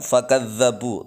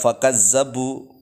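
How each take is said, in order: First: The middle consonant is a doubled 'dh' sound. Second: The middle consonant is a doubled 'z' sound. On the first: The speaker calls it right. "dzal ditasydid" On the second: The speaker calls it wrong. "jangan dibaca fakazzabu pakai zai"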